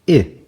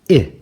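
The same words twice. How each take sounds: First: The vowel sounds like the i in itch. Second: The vowel sounds like the i in itch.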